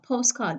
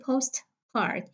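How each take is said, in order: First: The t sound is dropped. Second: The t sound is clearly pronounced. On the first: The speaker calls it right. "we do not pronounce the T sound" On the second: The speaker calls it wrong. "I don't say postcard"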